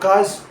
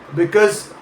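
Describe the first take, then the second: First: The first syllable drops, leaving a short form. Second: The word is said fully with both syllables.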